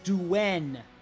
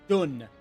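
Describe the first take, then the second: First: The syllable has a 'w' glide before the vowel. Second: The syllable has no glide before the vowel. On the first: The speaker calls it right. "Xiahou Duen, not Dun" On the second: The speaker calls it wrong. "not Dun"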